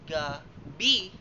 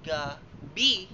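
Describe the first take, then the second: First: The stress is on the second syllable. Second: The same.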